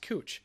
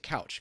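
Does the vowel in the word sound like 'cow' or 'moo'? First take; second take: moo; cow. First: The vowel sounds like the one in moo. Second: The vowel sounds like the one in cow. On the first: The speaker calls it right. "but it's actually pronounced cooch" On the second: The speaker calls it wrong. "most people, if you don't know, would pronounce it couch"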